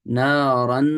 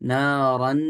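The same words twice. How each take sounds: First: The n is pronounced clearly with nasal sound. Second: The same.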